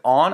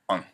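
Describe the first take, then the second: First: The word is said fully and strongly. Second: The word is said weakly and reduced. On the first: The speaker calls it wrong. "Instead of on" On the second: The speaker calls it right. "We need to squeeze our words. It's going to sound more natural"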